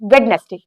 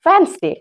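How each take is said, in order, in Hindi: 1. बीच में 'd' की आवाज़ सुनाई देती है। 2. बीच में 'd' की आवाज़ सुनाई नहीं देती है। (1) "जबकि ये भी टोटली रॉन्ग है।" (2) "यहाँ पे डी साइलेंट होता है आपका"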